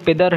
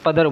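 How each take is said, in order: First: The first vowel is a short 'i' sound. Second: The first vowel is a short 'a' sound. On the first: This is the correct form of the word. "लफ्ज़ सही पिदर है" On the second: This is how it is said in Urdu. "हम उसे पदर बोल देते हैं"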